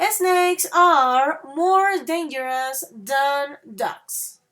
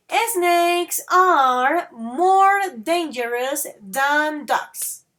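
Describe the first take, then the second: First: Slowly, leaning on more; slow model repeat. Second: Slowly, each word spelled out for the class; slow model sentence. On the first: Teacher repeating for students, stressing more. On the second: Teacher to students, modelling slowly and clearly. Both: Shown as a demonstration. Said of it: "Listen that again".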